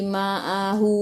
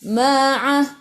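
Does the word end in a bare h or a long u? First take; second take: long u; bare h. First: The word ends with a long u vowel. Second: The word ends on a bare h sound. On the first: The speaker calls it wrong. "jangan berhenti ma'ahu" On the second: The speaker calls it right. "kena berhenti ma'ah"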